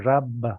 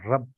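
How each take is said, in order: First: The final b is fully released. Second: The final consonant is held back, unreleased. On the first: The speaker calls it wrong. "You don't say rab" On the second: The speaker calls it right. "You say rab"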